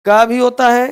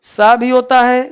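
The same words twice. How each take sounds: First: "का" begun with a hard k; hard C sound. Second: "सा" begun with an s hiss; soft C sound. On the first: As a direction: demonstrate C as "का", a k followed by a long ah. ("का" में क की कठोर ध्वनि) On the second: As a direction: demonstrate C as "सा", an s followed by a long ah. ("सा" में स की ध्वनि) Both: Shown as a demonstration. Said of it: "सी का साउंड".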